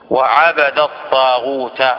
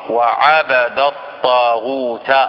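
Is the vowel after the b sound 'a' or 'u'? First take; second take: a; a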